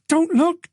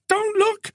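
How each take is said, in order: First: High, urgent whispered-to-herself warning; panicked high warning; frightened plea. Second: Even higher, strained repeat of the plea; rising panic. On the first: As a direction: beg yourself not to look. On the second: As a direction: let the fear climb on the second one. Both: Acted. Terrified woman in car.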